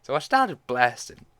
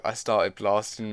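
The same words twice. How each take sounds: First: Louder, a bit higher, STARTED stressed; gleeful narration. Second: Slow, louder put-on meme voice; Danny DeVito meme. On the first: Real, not acted. Narrator continuing the story, gleeful and loud. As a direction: say it with relish, back in her own voice. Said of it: "meme just started playing in my head". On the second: Narrator quoting the meme playing in her head, hammed up. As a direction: quote the meme in a gruff comic voice. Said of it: "the Danny DeVito, I started blasting meme".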